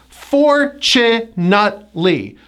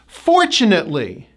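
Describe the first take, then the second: First: "fortunately" slow, FOR-chu-nut-lee in separate syllables. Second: "Fortunately" joined, FOR-chu-nut-lee. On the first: Teacher breaks down the word, slow syllable-by-syllable "fortunately". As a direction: break "fortunately" into four, stress FOR, T as CH. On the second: Teacher puts the syllables together, connected "Fortunately" with CH. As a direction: stress FOR in "Fortunately", T as CH. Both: Shown as a demonstration. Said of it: "T is pronounced as a C H".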